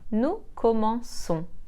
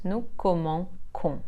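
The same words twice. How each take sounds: First: The consonant before -ons sounds like s. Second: The consonant before -ons sounds like k. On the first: The speaker calls it right. "soft s sound" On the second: The speaker calls it wrong. "and not"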